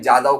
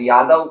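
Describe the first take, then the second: First: The name begins with a 'j' sound. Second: The name begins with a 'y' sound.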